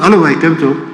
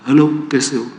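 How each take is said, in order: First: It is said very loudly. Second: It is said very softly.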